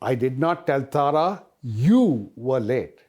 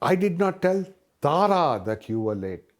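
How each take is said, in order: First: The stress is on the word you. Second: The stress is on the word Tara. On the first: Someone else was said to be late. "I said that Bala was late" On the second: Someone other than her was told. "when I put the emphasis on Tara"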